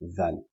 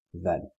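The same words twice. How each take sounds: First: The first sound is a soft th sound. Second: The first sound is a soft th sound.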